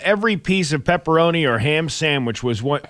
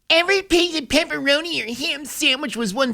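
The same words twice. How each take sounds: First: It is read in his normal voice. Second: It is read in a put-on PETA voice.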